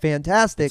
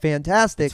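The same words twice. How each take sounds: First: It is said flatly and firmly, closing down. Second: It is said flatly and firmly, closing down.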